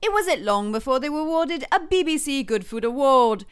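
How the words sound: It is said in a British accent.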